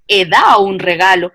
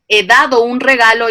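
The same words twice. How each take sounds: First: A consonant inside a word is left out. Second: Every consonant inside the words is pronounced. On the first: "yo te digo" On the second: "yo en vez de decirte"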